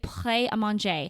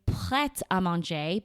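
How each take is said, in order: First: The T sound is silent before "à". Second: A T sound links into "à". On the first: The speaker calls it wrong. "I had still been saying it wrong" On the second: The speaker calls it right. "you have to say the T"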